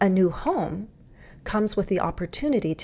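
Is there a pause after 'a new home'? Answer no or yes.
yes. There is a pause after the subject. "Or I could say a new home, that's my subject"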